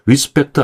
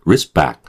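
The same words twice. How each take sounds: First: "respect" with full k and added vowel after t; Korean-style respect. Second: "respect" with tense p, final ct barely released; English respect. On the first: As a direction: say "respect" slowly as ri-seu-pek-teu. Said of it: "respect 안 되고". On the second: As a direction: say "respect" like ris-BAK, clipped ending. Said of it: "요 정도 해주시면 돼요". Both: Shown as a demonstration.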